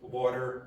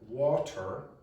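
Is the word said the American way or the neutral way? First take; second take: American; neutral. First: It is said with an American pronunciation. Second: It is said with a non-American pronunciation. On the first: The speaker calls it wrong. "Don't pronounce like that" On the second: The speaker calls it right. "If you pronounce water, Americans understand you"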